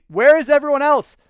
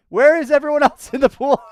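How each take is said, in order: First: High, loud disbelieving where; incredulous shout. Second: High, loud, laughing through the question; laughing disbelief. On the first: To viewers, amazed no one else is in the pool, shouting. Shocked no rivals in view. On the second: To viewers, laughing that the pool looks empty, loud and high. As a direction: crack up while asking again. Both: Real, not acted.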